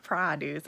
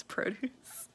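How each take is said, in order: First: PRODUCE as PRAH-dooce; rejected pronunciation. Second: PRODUCE as PRO-dooce; long O in PRODUCE; slow, softer PRO-dooce for PRODUCE; Canadian pronunciation. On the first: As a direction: open AH in PRODUCE. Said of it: "It's not produce". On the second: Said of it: "it's produce". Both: Shown as a demonstration.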